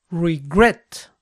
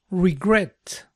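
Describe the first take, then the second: First: "regret" with GRET punched and lifted; stress on last syllable. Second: Said in the usual way. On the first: Shown as a demonstration. Teacher checking the second rule for learners, final-syllable stress on "regret". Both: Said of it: "La acentuación cae en la última sílaba".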